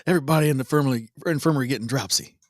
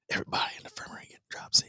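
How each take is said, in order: First: Said in the usual way. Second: Fast, hushed whisper. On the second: Acted. Joking about the sick in the infirmary, fast whisper. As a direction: whisper it quickly like a joking aside.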